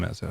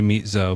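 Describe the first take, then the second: First: The first syllable sounds like 'mez'. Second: The first syllable sounds like 'meat'. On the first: It is the normal way to say the name. The speaker calls it right. "but you, yeah, just just do Mezzo" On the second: It is a joking mispronunciation. The speaker calls it wrong. "my friends call me Meat Zo"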